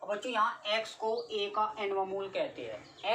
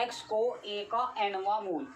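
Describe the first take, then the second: First: Said in the usual way. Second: "x को ए का एनवा मूल" said slowly, word by word, for note-taking; slow dictation. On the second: Shown as a demonstration. Teacher dictating the definition to students, slow and word by word. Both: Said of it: "क्या लिखा बच्चों?".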